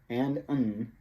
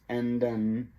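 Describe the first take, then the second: Both takes have the same delivery.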